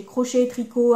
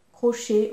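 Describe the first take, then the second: First: Tricot added firmly as a correction; crochet, tricot, with tricot pushed louder; stress on tricot. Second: Said in the usual way. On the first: Real, not acted. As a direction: lean on tricot to fix the word before it. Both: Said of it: "enfin crochet".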